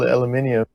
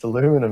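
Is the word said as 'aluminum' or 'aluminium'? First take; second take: aluminium; aluminum. First: The word is said with five syllables, a-lu-mi-ni-um. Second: The word is said with four syllables, a-lu-mi-num. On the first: The speaker calls it wrong. "It's not even al al aluminium" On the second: The speaker calls it right. "It's aluminum"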